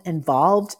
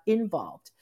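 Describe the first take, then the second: First: Involved said clearly louder and stressed to correct the slip. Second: Said in the usual way. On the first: Shown as a demonstration. Coach correcting her slip, punching involved. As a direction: hit the word involved hard as the correction. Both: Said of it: "I'm talking about involved".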